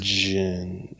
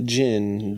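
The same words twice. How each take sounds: First: The syllable sounds like 'jun'. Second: The syllable sounds like 'gin'. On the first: The speaker calls it right. "It's jun" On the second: The speaker calls it wrong. "Not gin"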